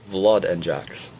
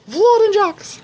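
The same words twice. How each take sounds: First: Leslie. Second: Very high put-on voice; Leslie. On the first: Acted. Reader testing the impression again, low trial voice. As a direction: sink the names low and draw them out. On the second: Reader trying another take on the impression, high trial voice. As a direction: jump way up high for a silly impression. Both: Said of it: "what my voice sounds like when I pretend to be".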